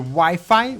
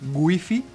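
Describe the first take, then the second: First: It is said with an English pronunciation. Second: It is said with a Spanish pronunciation.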